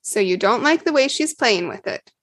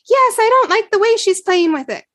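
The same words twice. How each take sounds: First: Said in the usual way. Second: Put-on higher, louder little-girl voice, pouting; sulky kid whining about her sister; child's complaint. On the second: Jen voiced as small child.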